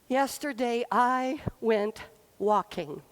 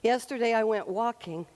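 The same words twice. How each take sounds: First: It is said with glee and great power. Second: It is said in a plain, matter-of-fact tone.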